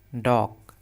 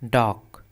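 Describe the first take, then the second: The two takes are said the same way.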